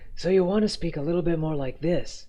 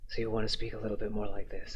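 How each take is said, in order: First: The voice is breathy with no creaky fry. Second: The voice is breathy with a creaky fry. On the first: The speaker calls it right. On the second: The speaker calls it wrong.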